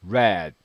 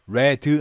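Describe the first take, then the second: First: The final d ends the word without a vowel. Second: An extra vowel sound follows the final d. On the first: The speaker calls it right. "D는 발음이 받침으로 가야 돼요. red 이런 느낌입니다" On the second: The speaker calls it wrong. "우리말의 끝소리에는 음가가 그으 음가가 들어가게 돼 있어요. 그래서 red 하지 마시고요"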